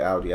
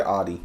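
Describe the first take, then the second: First: "Audi" as ow-dee; first syllable of "Audi" like ow; German-style pronunciation. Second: "Audi" as ah-dee; first syllable of "Audi" an open ah; American pronunciation. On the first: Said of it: "I always say Audi". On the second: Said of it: "I've never said Audi". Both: Shown as a demonstration.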